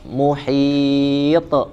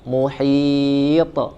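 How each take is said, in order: Both takes have the same delivery.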